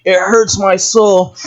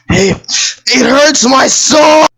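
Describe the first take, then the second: First: Said in the usual way. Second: Anguished shout. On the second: Real, not acted. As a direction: cry out in mock pain.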